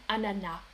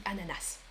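First: "ananas" said as "anana", ending on the vowel; silent final S. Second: "ananas" closed with an audible "s"; pronounced final S. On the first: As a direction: leave the last S of "ananas" unspoken. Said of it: "Des personnes disent ananas". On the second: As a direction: sound the last S of "ananas". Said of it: "Mais moi". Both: Shown as a demonstration.

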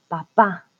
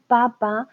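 First: Papá with stress on the last syllable, pa-PÁ; correct stress papá. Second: Papa with stress on the first syllable, PA-pa; wrong stress papa. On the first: Teacher showing the right word: papá stressed on PÁ. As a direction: land on the final á of papá. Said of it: "no decimos papa". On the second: Teacher showing the wrong word: papa stressed on PA. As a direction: say papa as PA-pa, like the potato. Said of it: "decimos papá". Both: Shown as a demonstration.

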